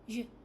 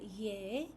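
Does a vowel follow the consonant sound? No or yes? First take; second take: no; yes. First: The consonant is said alone, without a vowel. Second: An eh-like vowel follows the consonant. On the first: The speaker calls it right. "you say j" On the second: The speaker calls it wrong. "you don't say ye"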